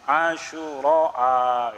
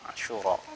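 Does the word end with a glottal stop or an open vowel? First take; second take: glottal stop; open vowel. First: The word ends in a long vowel and glottal stop. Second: The word ends in a plain open vowel. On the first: "Mamdud itu yang Asyura" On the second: "Ada juga maksur"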